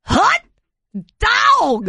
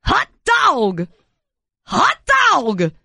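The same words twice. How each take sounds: First: Higher Harry Carey. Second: Harry Carey hot dog. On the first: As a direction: push the Hot dog way up into a squeal. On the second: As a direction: bark it like an old-time ballpark announcer. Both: Acted. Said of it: "like Harry Carey".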